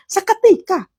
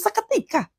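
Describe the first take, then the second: First: Seketika punched high; emphatic seketika. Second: Seketika high and much softer, almost breathed; soft, airy high seketika; hushed seketika. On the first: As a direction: hit seketika hard and high. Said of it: "Lihat di sini dikatakan". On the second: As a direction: let seketika float softly up high. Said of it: "Begitu ketemu Yesus". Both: Real, not acted.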